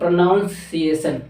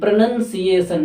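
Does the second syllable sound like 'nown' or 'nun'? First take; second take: nown; nun. First: The second syllable sounds like 'nown'. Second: The second syllable sounds like 'nun'. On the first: The speaker calls it wrong. "जो कि गलत word होता है" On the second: The speaker calls it right. "एग्जैक्ट में होता है प्रोनंसिएशन"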